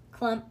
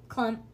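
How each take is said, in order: Both takes have the same delivery.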